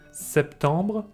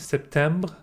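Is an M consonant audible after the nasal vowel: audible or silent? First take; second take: silent; audible. First: The vowel is nasal with no M heard. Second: An M consonant is heard after the vowel. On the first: The speaker calls it right. "I'm saying septembre" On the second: The speaker calls it wrong. "I'm not saying septembre"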